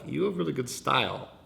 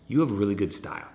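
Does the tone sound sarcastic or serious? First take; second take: sarcastic; serious. First: It sounds sarcastic, as if said with a smile. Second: It sounds serious and sincere, low and steady. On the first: The compliment is not really meant. The speaker calls it wrong. "it could come off like you're being sarcastic. We don't want that. It's not like" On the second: The compliment is sincerely meant. The speaker calls it right.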